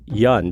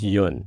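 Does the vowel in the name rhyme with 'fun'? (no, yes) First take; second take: yes; no. First: The vowel rhymes with the English word fun. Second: The vowel is the Korean one, not rhyming with fun. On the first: This is how people in Ohio said the name. "It rhymes with fun" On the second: This is how the name is said in Korea. "the proper pronunciation of my name in Korea"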